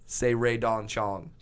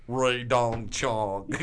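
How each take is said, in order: First: Said in the usual way. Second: Put-on very slow, drawn-out manager's accent; Barry Katz accent. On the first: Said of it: "I go". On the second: Comedian mimicking manager saying one name, drawn-out accent. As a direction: stretch each word in the manager's accent. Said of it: "he says it in this accent".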